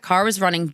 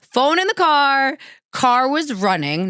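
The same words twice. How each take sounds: First: Said in the usual way. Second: Alarmed. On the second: Retold or imitated. Panicked recounting of locked car.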